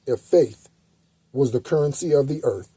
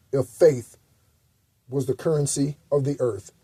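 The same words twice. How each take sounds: The two takes are said the same way.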